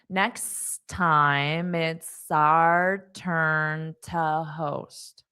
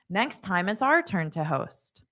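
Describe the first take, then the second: First: The sentence is spoken slowly. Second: The sentence is spoken at natural speed. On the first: "I'll say it slowly" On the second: "then I'll say it at a natural pace"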